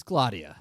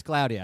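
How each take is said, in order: First: "Claudia" as he insists it is said; name pronunciation. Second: "Claudia" as its owner corrects it; correcting the pronunciation. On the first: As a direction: state "Claudia" firmly as the agreed pronunciation. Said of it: "can we all agree?". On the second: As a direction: insist on her own way of saying "Claudia". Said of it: "And she's like". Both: Retold or imitated.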